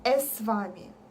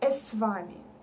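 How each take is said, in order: First: A vowel sound comes before the s. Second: A vowel sound comes before the s.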